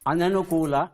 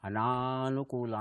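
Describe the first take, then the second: First: The second vowel is short. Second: The second vowel is drawn out long. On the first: The speaker calls it right. "ಇದು ಸರಿಯಾದ ಪ್ರಯೋಗ" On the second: The speaker calls it wrong. "ಅಂತ ಹೇಳ್ತೇವೆ. ತಪ್ಪದು"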